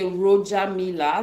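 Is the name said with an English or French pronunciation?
English. The name is said with an English pronunciation. This is how most people outside Cameroon say it. "some people say"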